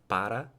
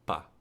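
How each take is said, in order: First: Both syllables are pronounced in full. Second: Only a single short syllable remains. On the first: "you can have para" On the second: "you can even have pa"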